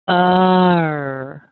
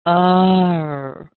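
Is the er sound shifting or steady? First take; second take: shifting; shifting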